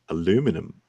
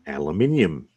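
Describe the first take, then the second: First: The word is said the American way. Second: The word is said the British way. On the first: The speaker calls it wrong. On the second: The speaker calls it right.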